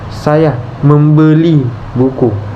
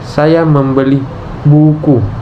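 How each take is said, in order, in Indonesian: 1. Kata membeli mendapat tekanan. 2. Kata buku mendapat tekanan. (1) "Tekanan pada kata "membeli"" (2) "Tekanan pada kata "buku""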